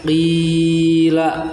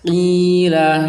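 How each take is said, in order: First: The long vowel is drawn out far too long. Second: The long vowel is held only briefly. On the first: The speaker calls it wrong. "terlalu panjang juga" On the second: The speaker calls it right. "hanya diayun saja"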